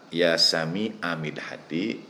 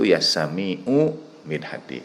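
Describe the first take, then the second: First: The vowel after 'sami' is an 'a' sound. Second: The vowel after 'sami' is a 'u' sound. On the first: The two words form one possessive phrase. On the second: The two words stay separate.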